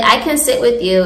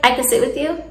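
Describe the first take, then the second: First: "I can sit with you" falling at the end, like a statement; statement tune. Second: "I can sit with you" with YOU rising at the end; said like a question. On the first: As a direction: stress CAN and let the pitch drop through "with you". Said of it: "is like a statement". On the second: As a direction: make the statement sound like a question, lifting "you". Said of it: "you're gonna say it like a question". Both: Shown as a demonstration.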